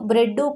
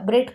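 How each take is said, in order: First: The word ends with an added 'u' vowel. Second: The word ends on the final consonant. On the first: The speaker calls it wrong. "ಬ್ರೆಡ್ಡು ಕೊಡಿ ಅಂತ ಕೇಳ್ತೀವಾ" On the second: The speaker calls it right. "ಇಲ್ಲ ಬ್ರೆಡ್ ಕೊಡಿ ಅಂತ ಕೇಳ್ತೀವಿ"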